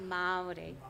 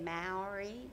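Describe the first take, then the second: First: It is said with a native Māori pronunciation. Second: It is said with an American English pronunciation. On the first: The speaker calls it right. "It's actually pronounced properly Maori" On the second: The speaker calls it wrong. "I think you guys say Maori or something like that"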